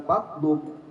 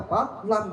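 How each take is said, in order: First: Slow "fatlum" with an u in the last syllable; wrong vowel reading. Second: Slow "Fatlam" with an a in the last syllable; correct vowel reading. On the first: Preacher rejects the other reading, "fatlum" with an u. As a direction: say "fatlum" slowly, closing on an u. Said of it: "bukan fatlum". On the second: Preacher gives the Quranic reading, "Fatlam" with an a. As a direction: say "Fatlam" slowly, stressing the a vowel. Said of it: "Fatlam bacanya". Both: Shown as a demonstration.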